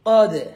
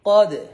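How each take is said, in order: Both takes have the same delivery.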